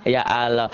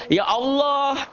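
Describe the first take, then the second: First: "Ya Allah" as Sukabumi "ya aaloh"; Sukabumi-style "Ya Allah" with stretched first vowel; Sukabumi pronunciation. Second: "Ya Allah" high, with a round "Olloh"; high, sustained thick "Ya Allah"; correct thick Allah. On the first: Acted. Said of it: "A A Ari dari Sukabumi". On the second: Shown as a demonstration. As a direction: say "Ya Allah" high, heavy L and O vowel. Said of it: "jangan juga kayak A A".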